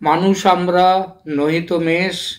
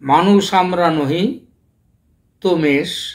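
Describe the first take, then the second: First: The pause comes after the word 'amra'. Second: The pause comes after the word 'nohi'. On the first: We are humans, not sheep. "মূল কবিতায় ছিল" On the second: We are not humans, we are sheep. "কমাটা মানুষ আমরার পরে না দিয়ে নহির পরে দেয়া যায়"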